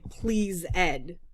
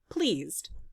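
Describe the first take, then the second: First: The ending is said as its own syllable. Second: The ending joins the word in one syllable. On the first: The speaker calls it wrong. "We don't say please Ed" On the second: The speaker calls it right. "most times we say pleased"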